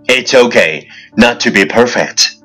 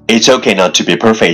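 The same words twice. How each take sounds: First: It is said at a normal pace. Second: It is said very fast in one breath.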